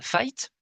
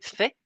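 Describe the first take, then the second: First: The word ends with an audible t sound. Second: The word ends on a vowel, final t silent. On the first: The speaker calls it wrong. "mais si nous prononce ça" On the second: The speaker calls it right. "le participe passé fait"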